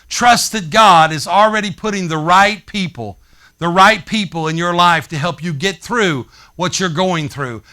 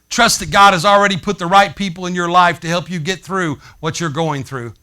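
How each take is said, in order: First: It is said more slowly. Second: It is said at a normal speed.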